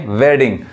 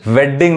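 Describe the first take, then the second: First: वेडिंग with only one d sounded; वेडिंग without doubling the d; single-d pronunciation. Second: वेडिंग with both d's sounded; वेडिंग wrongly split on a doubled d; wrong double-d pronunciation. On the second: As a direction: say वेडिंग as ved-ding, doubling the d. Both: Shown as a demonstration. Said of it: "वेडिंग नहीं".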